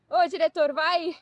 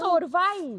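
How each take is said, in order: First: It is said in a mild, playful tone. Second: It is said in an angry, commanding tone.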